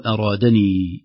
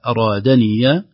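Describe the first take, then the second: First: "أرادني" ending in "-ni"; silent ya. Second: "أرادني" ending in an open ya with a fatha. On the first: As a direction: say "أرادني" with a long ee and no fatha. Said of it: "أو". (ياء ساكنة) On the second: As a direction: say "أرادني" with "-niya". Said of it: "تأتي إما مفتوحة". (ياء مفتوحة) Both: Shown as a demonstration.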